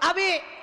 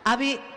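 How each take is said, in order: First: The name is called at a very high pitch. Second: The name is called at a slightly higher pitch. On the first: This is an exasperated third call. "Yang ketiga tujuh oktav" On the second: This is a second call after being ignored. "suaranya naik setengah oktav"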